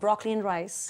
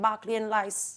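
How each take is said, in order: First: Broccoli is said with its r sound. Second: Broccoli is said without its r sound. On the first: This is the ordinary way of saying it. "For ब्रोकली and rice" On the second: This is how it would sound after picking up the local accent in China. "You should be saying बाकली and rice"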